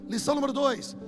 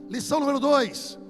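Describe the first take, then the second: The two takes are said the same way.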